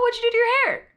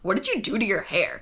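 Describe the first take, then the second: First: The question sounds friendly and interested. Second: The question sounds critical and disapproving. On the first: The new haircut was noticed. "So clearly it wasn't a, ... It was like" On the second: The hair looks bad. "That's how I heard it"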